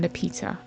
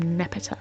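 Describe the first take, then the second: First: It is said with a British pronunciation. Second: It is said with an American pronunciation.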